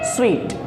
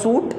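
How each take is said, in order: First: The word sounds like 'sweet'. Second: The word sounds like 'soot'. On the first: The speaker calls it right. "असल pronunciation इसकी होती है स्वीट" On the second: The speaker calls it wrong. "कभी भी इसका pronunciation सूट नहीं होता"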